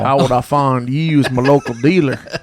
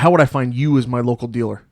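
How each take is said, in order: First: It is said in a Texas drawl. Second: It is said in a plain accent.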